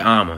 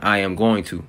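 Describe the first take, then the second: First: The phrase is squeezed into one short word. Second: Every word is said in full. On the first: This is the Southern way of saying it. "We just say I'ma. It's way faster" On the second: This is the full form. "as in I am going to"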